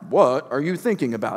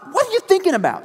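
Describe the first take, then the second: First: It is said in a calm, ordinary tone. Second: It is said in a shocked, surprised tone. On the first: The speaker calls it wrong. "not like" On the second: The speaker calls it right. "No, it's what? ... It's an expressive, shocked surprise"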